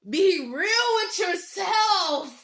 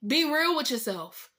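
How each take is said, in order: First: Very slow, each word drawn out; slow, deliberate plea; slow emphasis. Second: Said in the usual way. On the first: Real, not acted. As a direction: drag it out so it sinks in.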